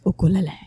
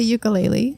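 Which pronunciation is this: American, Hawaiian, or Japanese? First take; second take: Hawaiian; American. First: It is said with Hawaiian-style vowels and sounds. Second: It is said with an American English pronunciation. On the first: "like the, Ja- the Hawaiian way" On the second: "I come to America and most people say ukulele"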